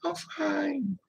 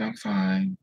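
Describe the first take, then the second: First: High, whispery imitated tearful voice; faint, high retold whimper; crying denial. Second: Higher retold "I'm fine"; imitated upset reassurance, pitched up; crying denial. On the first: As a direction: squeak it out softly through acted tears. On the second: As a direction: act a mild tearful cover-up. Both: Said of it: "And I'm crying".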